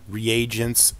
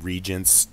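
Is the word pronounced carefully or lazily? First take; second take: carefully; lazily. First: The word is pronounced carefully and in full. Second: The word is pronounced lazily, with sounds dropped.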